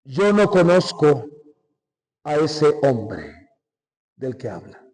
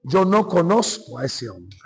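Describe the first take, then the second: First: Slow, low, hushed oath of denial; Peter's denial. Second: Said in the usual way. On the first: Retold or imitated. Peter swearing to the crowd he never knew Jesus, slow and low. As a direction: drag out the words as if swearing an oath.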